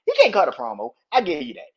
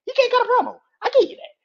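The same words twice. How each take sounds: First: Said in the usual way. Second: High, loud repeat; shouting the admission; shouted concession. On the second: Real, not acted. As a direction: yell it out for emphasis. Repeats concession much louder, higher.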